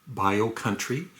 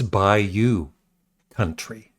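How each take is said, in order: First: The first word sounds like 'bio'. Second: The first word sounds like 'bayou'. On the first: The speaker calls it wrong. "See, right there" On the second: The speaker calls it right. "It's Bayou Country. And I should know that"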